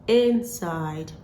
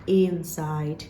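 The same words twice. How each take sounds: First: The first vowel is a short i sound. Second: The first vowel is not a short i sound. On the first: The speaker calls it right. "The transcription of these words is actually I with a short vowel sound I. So this word is pronounced inside" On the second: The speaker calls it wrong. "not inside"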